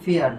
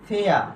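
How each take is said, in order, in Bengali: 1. শব্দটি উচ্চারিত r ধ্বনি দিয়ে শেষ হয়। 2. শব্দটি কোনো r ধ্বনি ছাড়াই শেষ হয়। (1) "এটার উচ্চারণ করি ফেয়ার, কিন্তু এটার উচ্চারণ হবে কি ফেয়ার হবে না" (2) "এটার উচ্চারণ হবে কি ফেয়া"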